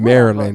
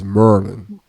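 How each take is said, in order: First: The name is said with three syllables. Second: The name is squeezed into two syllables. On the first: The speaker calls it wrong. "Not Maryland" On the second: The speaker calls it right. "It's Merlin"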